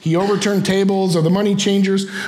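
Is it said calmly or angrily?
calmly. It is read in a calm, plain way.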